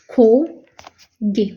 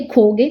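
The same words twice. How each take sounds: First: खोगे said very slowly, each sound stretched out; drawn-out demo word. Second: Said in the usual way. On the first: Shown as a demonstration. Teacher spelling out खोगे slowly for students. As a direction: stretch खोगे out syllable by syllable for the class. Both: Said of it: "अब क्या आ गया हमारा".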